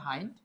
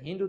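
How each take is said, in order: First: The vowel sounds like 'eye'. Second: The vowel sounds like short 'ih'. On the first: The speaker calls it right. "এটার উচ্চারণ হবে হাইন্ড" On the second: The speaker calls it wrong. "আমি কোন এক ক্লাসে এটা হিন্ড উচ্চারণ করেছিলাম"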